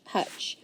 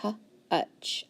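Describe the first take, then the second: First: Said in the usual way. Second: Slowly sounding out H-utch, then blend. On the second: Shown as a demonstration. Teacher to student, sounding out slowly. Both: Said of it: "so I know it's gonna be short".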